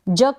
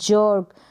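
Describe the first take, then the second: First: The vowel is short and clipped. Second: The vowel is long and drawn out. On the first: The speaker calls it wrong. "जक नहीं बढ़ा है मैंने" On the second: The speaker calls it right. "इसका लंबा उच्चारण होगा"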